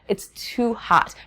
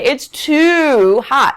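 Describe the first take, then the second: First: The word 'too' is short and light. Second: The word 'too' is full and stressed. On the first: The speaker calls it right. "So it's slight, the way that I say too" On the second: The speaker calls it wrong. "I don't say it's too hot"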